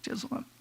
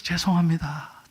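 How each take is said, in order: First: Very soft, barely voiced sorry; timid apology. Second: Said in the usual way. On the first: Wife apologizing again to the angry owner, very soft. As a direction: shrink away as you apologize again. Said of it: "계속". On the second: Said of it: "그래서".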